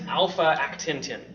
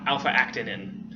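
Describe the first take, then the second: First: The word ends with an extra 't', like 'tintin'. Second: The word ends without the extra 't', as 'tinin'. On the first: The speaker calls it wrong. "I'm mispronouncing it on purpose" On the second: The speaker calls it right. "is how you would actually pronounce it"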